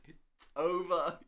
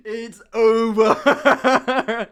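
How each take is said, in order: First: Said in the usual way. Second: Very slow line, louder, through laughter; laughing, slow. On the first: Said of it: "I'm like, "You fucking dare say a word". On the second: Real, not acted. Telling viewers the Irish guy sat there, laughing slowly. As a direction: drag it out while laughing.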